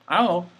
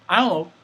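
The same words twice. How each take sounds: No difference in how they are said.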